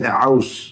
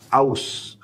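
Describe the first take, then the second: First: It begins with a throaty ain sound. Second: It begins with a plain glottal stop. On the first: The speaker calls it wrong. "Tidak sengaja menyebutkan Ain" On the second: The speaker calls it right. "pakai Hamzah Aus ya"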